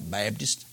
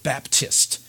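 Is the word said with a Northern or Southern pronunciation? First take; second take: Southern; Northern. First: It sounds like 'Bibdist', with a Southern accent. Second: It sounds like 'Baptist', with a Northern accent. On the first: "in the South, they pronounce it as if the word was B-I-B-D-I-S-T" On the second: "It would sound too prissy. That would sound too Northern for them"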